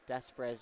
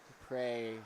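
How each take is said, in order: First: The name is said with an s sound. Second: The name is said without an s sound. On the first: The speaker calls it wrong. "just really doesn't sound right" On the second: The speaker calls it right. "the more I kind of assume that's more Dupre"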